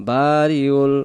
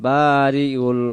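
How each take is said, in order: Both takes have the same delivery.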